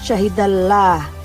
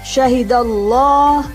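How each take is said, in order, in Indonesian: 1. Huruf L-nya tipis, dengan vokal yang mirip A. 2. Huruf L-nya tebal, dengan vokal yang mirip O. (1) "bukan syahidallah" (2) "Keduanya terdengar bunyi O. Jadi membacanya syahidallah"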